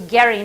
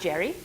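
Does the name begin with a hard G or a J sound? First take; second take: hard G; J sound. First: The name begins with a hard G sound. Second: The name begins with a J sound. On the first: This is how the man himself said his name. The speaker calls it right. "he was Gary" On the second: This is the later, changed pronunciation. The speaker calls it wrong. "not Jerry"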